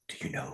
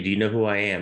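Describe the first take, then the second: First: It is said quietly. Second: It is said loudly.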